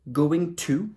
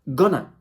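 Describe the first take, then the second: First: The words are said fully and separately. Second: The words are reduced and run together.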